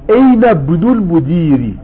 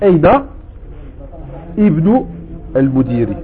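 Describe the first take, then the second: First: The words run together and the initial vowel drops. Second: A stop comes first and the initial vowel sounds. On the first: "tu dis pas Aina Ibnoul Moudiri. Tu dis Aina Bnoul" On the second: "si tu t'arrêtes, tu dis Aina Ibnoul Moudiri"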